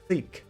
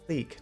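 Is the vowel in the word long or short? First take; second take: long; long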